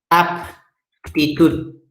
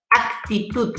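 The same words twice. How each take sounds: First: "Aptitud" broken slowly as AP... ti-TUD; very slow "Aptitud" with a clear p before the t; contrastive articulation. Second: "actitud" as ak-ti-TUD, k sounded before the t; careful "actitud", the c fully pronounced; contrastive articulation. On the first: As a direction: pop the p in "Aptitud", then pause. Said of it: "Con P". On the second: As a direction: say "actitud" higher, with a crisp k. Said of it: "Parecida escritura, parecida pronunciación". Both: Shown as a demonstration.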